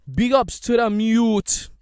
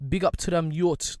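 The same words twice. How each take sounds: First: Loud, slow, higher Jamaican dancehall shout; slow, loud Jamaican patois shout-out; Jamaican toasting. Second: Said in the usual way. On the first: Pretend. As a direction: bellow it like a Jamaican DJ on the mic.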